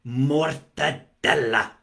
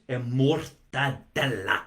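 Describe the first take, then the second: First: Mortadella drawn out slowly, Italian vowels, stress on DEL; Italian pronunciation. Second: Mortadella said slowly the Italian way, rolled r, long double l; Italian-style mortadella. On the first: Host repeats it for viewers, slow Italian pronunciation. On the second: Host showing viewers how to say the meat, Italian pronunciation. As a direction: savour mortadella like an Italian, mor-ta-DEL-la. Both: Shown as a demonstration. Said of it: "See the way I say that?".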